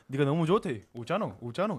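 It is said with regional dialect intonation.

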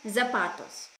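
The word begins with a z sound. This is the Spanish form. "а по-испански, наверное"

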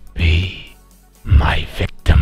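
It is said in a put-on Candyman voice.

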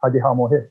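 It is said in a broad regional accent.

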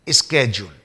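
It is said the American way, 'skedule'.

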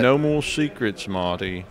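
It is said in a South London British accent.

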